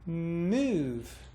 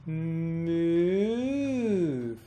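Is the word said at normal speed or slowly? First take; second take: normal; slow. First: The word is said at normal speed. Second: The word is drawn out slowly. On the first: "A natural speed" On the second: "That's slowly"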